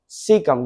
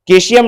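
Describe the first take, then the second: First: It begins with an S sound. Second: It begins with a K sound. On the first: The speaker calls it right. "इसका उच्चारण है सीकिया, सीकम" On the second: The speaker calls it wrong. "केशियम नहीं"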